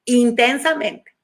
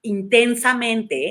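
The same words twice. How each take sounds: First: Insisting on "Intensamente" to drive it home; stronger emphasis. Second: "intensamente" drawn out slowly, each syllable weighted; first deliberate stress of "intensamente"; slow emphasis. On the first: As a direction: repeat "Intensamente" firmer. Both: Shown as a demonstration.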